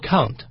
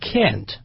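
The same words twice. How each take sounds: First: It is said with a British accent. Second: It is said with an American accent. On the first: "美国英语不像英国英语啊，他这个不能的时候不说 can't" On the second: "他说 can't"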